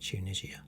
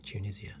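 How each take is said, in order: First: The name is said with a British pronunciation. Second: The same.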